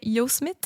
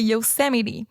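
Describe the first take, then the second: First: The word ends with a sound like 'mite'. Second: The word ends with a sound like 'mitty'. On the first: The speaker calls it wrong. "moi, je disais Yosemite" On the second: The speaker calls it right. "Mais c'est Yosemite"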